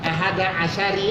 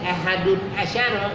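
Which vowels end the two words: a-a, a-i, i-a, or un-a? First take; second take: a-i; un-a. First: The second word ends in an i vowel. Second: The first word ends in un. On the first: "atau salah satunya" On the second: "itu salah itu"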